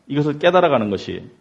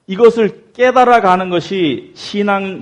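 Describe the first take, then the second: First: Said in the usual way. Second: 깨달아가는 stressed high, loud and slow; slow down and hit 깨달아가는 loud and high; emphatic stress. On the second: Shown as a demonstration.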